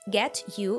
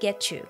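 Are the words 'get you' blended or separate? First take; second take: separate; blended. First: The t and y sounds are said separately. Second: The t and y merge into a ch sound.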